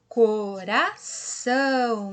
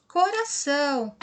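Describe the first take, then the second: First: "Coração" slow, split co, ra, ção; syllable by syllable. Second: Said in the usual way. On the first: Shown as a demonstration. Teacher completing the heart word, syllables drawn out slowly. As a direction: stretch and separate each syllable of "Coração". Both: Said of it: "Se nós falamos separadinho".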